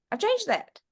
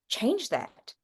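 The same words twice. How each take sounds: First: "changed" hit much higher, with falling tune; emphatic repeat. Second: Said in the usual way. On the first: Real, not acted. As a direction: lift "changed" way up, then fall.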